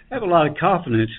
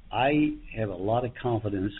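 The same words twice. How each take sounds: First: After crying. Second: Said in the usual way. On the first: Real, not acted. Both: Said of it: "I got a little teary-eyed here".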